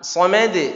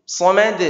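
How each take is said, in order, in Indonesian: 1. Pantulan konsonan akhir itu cepat dan rapat. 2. Pantulan konsonan akhir itu cepat dan rapat.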